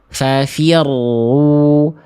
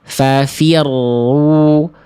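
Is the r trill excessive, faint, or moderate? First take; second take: moderate; moderate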